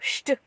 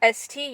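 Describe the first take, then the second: First: It begins with an sh sound. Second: It begins with a plain s sound.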